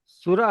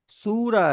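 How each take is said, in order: First: The first vowel is short. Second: The first vowel is long. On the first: The speaker calls it wrong. "सुरा में सिन के ऊपर पेश आएगा" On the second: The speaker calls it right. "वाव की sound आ रही है ना"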